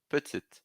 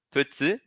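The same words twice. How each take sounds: First: "Petite" with the T spoken; final T sounded. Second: "Petit" ending on the I; silent final T. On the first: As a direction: voice the last T of "Petite". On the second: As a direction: masculine Petit. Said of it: "não pronuncio". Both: Shown as a demonstration.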